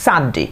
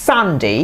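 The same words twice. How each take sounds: First: Sunday as "SUN-dee", short; "dee" ending. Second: Sunday as "SUN-day"; "day" ending. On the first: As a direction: end Sunday on a quick "di". (শেষে "ডি" উচ্চারণে) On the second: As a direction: end Sunday on a full "day". (শেষে "ডে" উচ্চারণে) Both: Shown as a demonstration. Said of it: "Saturday or Saturday".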